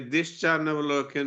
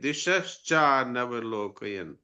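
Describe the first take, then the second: First: The 'sha' sound before 'chaa' is left out. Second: The 'sha' sound before 'chaa' is clearly said. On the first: The speaker calls it wrong. "ये दिश्चा नवलोकन नहीं है" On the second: The speaker calls it right.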